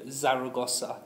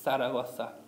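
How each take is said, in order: First: It starts with a buzzing z sound. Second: It starts with a soft th sound. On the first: The speaker calls it wrong. "go for that Z, Z sound like we have in English" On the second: The speaker calls it right. "rather than a Z, where we don't stick our tongue... out"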